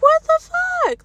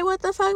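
First: High, drawn-out, incredulous; stunned disbelief. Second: Said in the usual way. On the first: Retold or imitated. Thinking it when her dad demands the keys, stunned and high. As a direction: let the outrage stretch it out slowly. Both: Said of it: "Like, I didn't say "What the fuck?".

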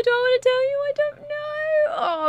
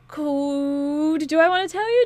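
First: High, squealing tease; sing-song coy dithering; playful teasing. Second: Teasing. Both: Real, not acted. Teasing the viewers with a secret.

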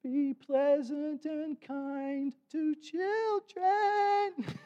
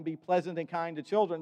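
First: Put-on very high, very slow little girl's voice; little tiny voice. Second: Said in the usual way. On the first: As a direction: squeak it out like a tiny granddaughter. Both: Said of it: "this little tiny little voice".

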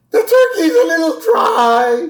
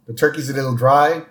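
First: High crying wail, overdone; mock wailing. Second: Said in the usual way. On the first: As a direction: wail it like a tragedy. Dramatic wail over dry turkey. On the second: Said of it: "plain then dramatic retake".

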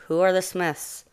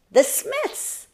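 First: Said in the usual way. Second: Very high, excited little mouse voice; urgent exclamation. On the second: A narrator's reading. Mouse announcing the problem to a sleepy bear, high and urgent. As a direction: squeal the name out high.

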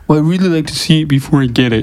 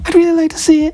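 First: Higher, froggy puppet voice; mock the customer in a puppet-frog voice; Kermit the Frog. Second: Very high, squeaky client imitation; mock customer voice. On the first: Tattooist imitates a client on the table, froggy puppet voice. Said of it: "they don't sound like Kermit the Frog". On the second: Tattooist redoes his client's request, very high mock voice. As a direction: redo the client in a tiny high falsetto. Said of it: "they don't sound like Kermit the Frog, though".

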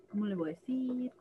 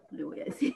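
First: Soft, fretting to herself; worried murmur. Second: Voiceless, laughing through the words; breathy laughing repeat. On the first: Mother quietly frets about telling her son, softer. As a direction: murmur the worry under her breath. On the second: Mother laughs at her own worry, voiceless laughing. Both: Retold or imitated. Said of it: "Entonces yo decía".

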